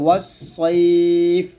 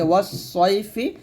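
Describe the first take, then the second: First: The word ends with a bare consonant. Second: The word ends with a short vowel. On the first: The reading stops on this word. "থামলে হবে" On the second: The reading continues past this word. "আসলে ওয়াস সয়ফি"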